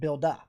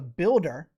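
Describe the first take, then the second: First: The final R sound is dropped. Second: The final R sound is pronounced. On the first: "you have a builda" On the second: "you don't have a builder"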